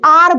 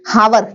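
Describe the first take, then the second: First: The word begins directly with a vowel sound. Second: The word begins with a pronounced h sound. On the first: The speaker calls it right. "आर बोलते हैं इसको" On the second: The speaker calls it wrong. "हावर नहीं बोला जाता"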